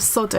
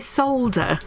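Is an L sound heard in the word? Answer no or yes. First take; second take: no; yes. First: The word is said without an L sound. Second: The word is said with an L sound. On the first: "instead of solder" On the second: "why do they say solder in England? ... Because there's an L in the word"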